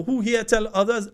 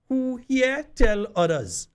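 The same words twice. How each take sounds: First: High Grenadian Patois call-out; lively Grenadian Patois rally call. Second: High, slow Grenadian Patois call. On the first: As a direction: ask the crowd in Grenadian Patois. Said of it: "in Patois because that Patois ain't Patois". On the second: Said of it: "I want to say it in, in Patois". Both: Shown as a demonstration.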